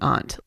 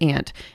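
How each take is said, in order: First: The word does not sound like ant. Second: The word sounds like the insect ant. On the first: This is how the speaker grew up saying it. "But I grew up saying aunt" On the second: This is how it is said in the South. "Everyone says aunt"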